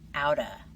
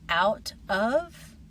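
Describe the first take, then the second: First: The words are blended into one short form. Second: Both words are pronounced fully and separately.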